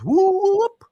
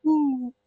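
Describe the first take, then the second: First: High, loud rising whoop; woman's whooping call, imitated loudly. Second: Small high-pitched "woo"; a tiny, high imitated hoot; slight little whoop. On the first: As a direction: let out a drawn-out whoop climbing sharply. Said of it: "she goes". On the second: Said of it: "was a very slight little".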